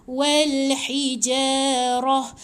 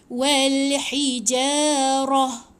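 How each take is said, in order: No difference in how they are said.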